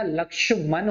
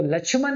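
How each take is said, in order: First: लक्ष्मण with a clear "ksh", slowly; correct pronunciation. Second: The common mistaken way, लक्ष्मण with ch; wrong pronunciation. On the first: Teacher giving students the right form, careful "lakshman". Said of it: "लक्ष्मण होता है". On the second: Teacher showing students the wrong way, plain "lachhman". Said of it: "तो लक्ष्मण नहीं होता". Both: Shown as a demonstration.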